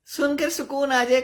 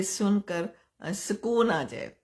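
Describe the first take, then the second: First: Higher and louder, jाए lifted at the end; emphatic repeat. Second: Said in the usual way. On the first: Real, not acted. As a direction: echo the words back with energy. Repeats request, answering it. (ज़ोर देकर ऊँची आवाज़ में दोहराना)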